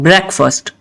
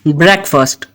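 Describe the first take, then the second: No difference in how they are said.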